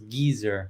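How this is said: The word is said the British way. "British English, it's geezer"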